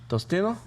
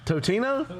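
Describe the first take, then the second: First: An S sound comes before the T. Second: No S sound comes before the T. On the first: The speaker calls it wrong. "You're not saying that right" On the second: The speaker calls it right. "There's no S"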